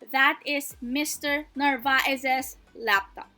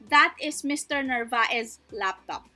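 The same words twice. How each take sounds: First: The possessive ending on the name is sounded. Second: The possessive ending on the name is dropped. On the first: The speaker calls it right. "we have to sound out that apostrophe S. Therefore, we say it as" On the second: The speaker calls it wrong. "We just don't say, ... It doesn't sound possessive"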